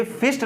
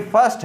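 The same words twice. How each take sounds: First: "फिस्ट" with a short i vowel and no r; mispronounced first. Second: "फर्स्ट" with an "uh" vowel for the i; first with 'अ'. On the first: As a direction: read the i literally in "फिस्ट". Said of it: "ये फिस्ट नहीं है". ("फिस्ट", इ की मात्रा वाला गलत उच्चारण) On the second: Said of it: "ये फर्स्ट है". ("फर्स्ट", आई का उच्चारण अ) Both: Shown as a demonstration.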